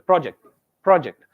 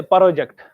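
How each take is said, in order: First: "project" with a quick, tight "pro"; quick first syllable. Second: "project" wrongly said as "par-o-ject"; drawn-out first syllable. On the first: Teacher models the right way, quick "pro" in "project". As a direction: run the P and R together in "project". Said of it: "It has to be very quick syllable stress". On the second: Teacher shows what not to say, "project" as "par-o-ject". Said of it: "you don't say project". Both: Shown as a demonstration.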